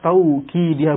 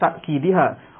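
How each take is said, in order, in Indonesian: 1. Suku kata pertama memiliki diftong 'au'. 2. Suku kata pertama diakhiri hamzah. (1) "ada lafad taukidiha" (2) "bukan ta'kidiha"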